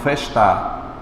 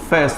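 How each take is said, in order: First: The stress is on the last syllable. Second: The stress is on the first syllable. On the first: The speaker calls it wrong. "e não festar" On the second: The speaker calls it right. "Eu digo festa"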